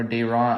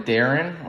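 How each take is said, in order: First: "Dayron" said as day-RON; alternative pronunciation. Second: "Darren" with stress on the first syllable; unsure pronunciation. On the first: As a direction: try "Dayron" with a long "ay" in the first syllable. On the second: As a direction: say "Darren" as DARR-en, the common English way. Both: Shown as a demonstration. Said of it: "I don't know how to say it".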